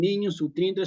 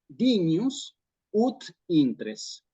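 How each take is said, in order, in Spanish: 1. Las palabras se juntan en un solo bloque. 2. Cada palabra se dice clara y por separado. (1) "Dicen así" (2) "Pero sí es que uno dice"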